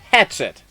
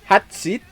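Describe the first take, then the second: First: The name is said with plain English sounds. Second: The name is said with Japanese-like sounds.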